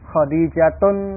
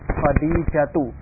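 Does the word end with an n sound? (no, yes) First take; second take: yes; no. First: The word ends with an added n sound. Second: The word ends on a vowel without n. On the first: The speaker calls it wrong. "bukan seperti itu" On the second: The speaker calls it right. "Tapi yang benar"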